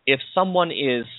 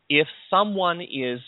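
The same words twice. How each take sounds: The two takes are said the same way.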